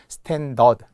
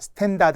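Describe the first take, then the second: First: The second syllable has an eo vowel. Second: The second syllable has an open a vowel. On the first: The speaker calls it right. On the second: The speaker calls it wrong. "스탠다드 아니에요"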